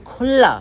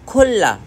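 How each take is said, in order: No difference in how they are said.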